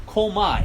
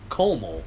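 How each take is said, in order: First: Cuomo said louder and higher, like kʰoʊmɑ; Cuomo as coma. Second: Said in the usual way. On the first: Shown as a demonstration. Punning on the governor's name, Cuomo as coma. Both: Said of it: "as in he's in a constant coma".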